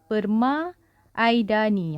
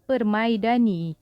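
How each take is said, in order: First: The a and i are split into two sounds. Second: The a and i glide into one sound. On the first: The speaker calls it wrong. "Kita tak akan baca perma-aidani" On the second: The speaker calls it right. "kita akan baca permaidani"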